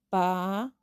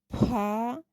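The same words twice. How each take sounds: First: The consonant is plain, with no breath. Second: The consonant has a puff of breath. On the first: "Son simples o normales porque no tienen ninguna variación en la pronunciación" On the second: "Aspiradas porque está acompañado por la letra H"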